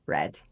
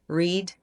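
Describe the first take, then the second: First: It has a changed vowel. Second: It has the base form's vowel. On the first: It is the past participle of the verb. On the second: It is the present form of the verb.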